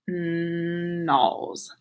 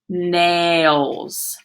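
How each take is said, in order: First: The vowel is not a long A sound. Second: The vowel is a long A sound. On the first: The speaker calls it wrong. "That doesn't make sense" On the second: The speaker calls it right. "Let's try it with the A sound"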